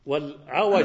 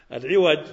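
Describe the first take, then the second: First: والعوج said as wal-ʿawaj with an open a after the ʿayn, slowly; والعوج with fatha on the ʿayn, drawn out and clear. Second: العوج said as al-ʿiwaj with an i vowel after the ʿayn; العوج with kasra on the ʿayn, stressed and clear. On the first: Teacher contrasting two readings for students: والعوج as wal-ʿawaj with fatha. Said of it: "بفتح العين". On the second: Teacher contrasting two readings for students: العوج as al-ʿiwaj with kasra. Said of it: "بكسر العين". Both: Shown as a demonstration.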